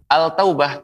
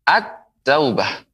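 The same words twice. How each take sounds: First: "al-taubah" with the l fully sounded; unmerged article. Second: Slow "At-taubah", l silent, t doubled; merged article. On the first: Quran teacher shows the wrong reading, unmerged article. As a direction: keep l and t separate in "al-taubah". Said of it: "Pengucapannya tidak al-taubah". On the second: Quran teacher corrects the wrong reading, merged article. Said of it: "tapi apa?". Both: Shown as a demonstration.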